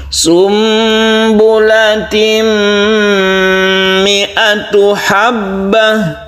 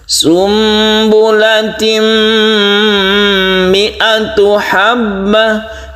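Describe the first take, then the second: The two takes are said the same way.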